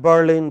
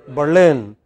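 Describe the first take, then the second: First: BERlin, stressed on the first syllable; wrong first-syllable stress. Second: Berlin, second syllable stressed and falling; correct final-syllable stress. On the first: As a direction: say Berlin with the weight up front. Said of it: "Not at Berlin, but". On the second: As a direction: say Berlin with the weight on the end. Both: Shown as a demonstration.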